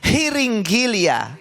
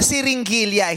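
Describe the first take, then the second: First: The word begins with an h sound. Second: The word begins with an s sound. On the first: The speaker calls it right. "It's hiringilya" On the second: The speaker calls it wrong. "Hindi siringilya ang Tagalog ng syringe"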